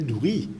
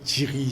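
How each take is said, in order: First: The first vowel is an oo sound. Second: The first vowel is an ee sound. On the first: This is the Chagossian form. "dans sa gauche, nous disons douri" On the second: This is the Mauritian Creole form. "nous disons diri"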